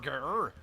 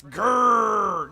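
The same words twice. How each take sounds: First: "grr" said weaker, as a plain word; a feeble "grr" without the roaring force; mock mispronounced growl. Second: GRR roared out loud and high; demonstrated growl. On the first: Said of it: "not grr". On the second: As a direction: growl "grr" as one long, forceful roll. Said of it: "It's not how you pronounce it. It's". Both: Shown as a demonstration.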